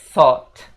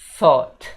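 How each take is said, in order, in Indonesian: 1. Kata ini diawali dengan bunyi th lembut. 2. Kata ini diawali dengan bunyi th lembut.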